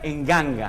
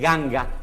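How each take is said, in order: First: The word starts with an added e vowel. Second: The word starts with a plain g sound. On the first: A vowel is added before the nasal. "le ponen una vocal delante" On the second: The nasal before the g is dropped. "o se omite y se dice ganga"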